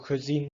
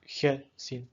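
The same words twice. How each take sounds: First: The first vowel is a weak, reduced schwa. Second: The first vowel is a full, unreduced vowel. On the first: The speaker calls it right. "it will be pronounced in a dof way" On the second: The speaker calls it wrong. "not gezien"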